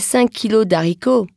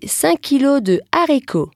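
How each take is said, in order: First: De is shortened to d before haricots. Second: De is said in full before haricots. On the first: The speaker calls it wrong. "Je ne dirai pas" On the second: The speaker calls it right. "je dirai"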